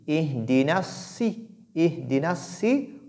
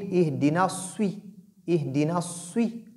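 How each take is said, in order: First: Ihdina si slow, lips kept still; unrounded emphatic s. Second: Ihdina sui with rounded lips on s. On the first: Teacher shows the right way: flat lips on si. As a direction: hold si heavy without rounding. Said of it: "on dit". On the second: Teacher shows the wrong way: lips rounded on sui. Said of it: "pas dire". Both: Shown as a demonstration.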